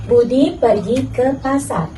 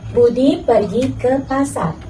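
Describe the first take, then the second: First: It comes to a full stop after pasar. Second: The same.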